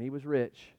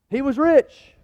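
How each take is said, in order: First: Softer, lower, reflective; quiet repeat. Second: Much higher and louder proclamation; emphatic exclamation. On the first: Pastor repeats it quietly, reflecting. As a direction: let it drop, almost to himself. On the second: Pastor declares the rich man's wealth, ringing out. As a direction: belt it out to the hall. Preacher punctuating. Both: Real, not acted.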